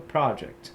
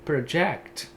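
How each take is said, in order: First: The stress is on the first syllable. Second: The stress is on the second syllable.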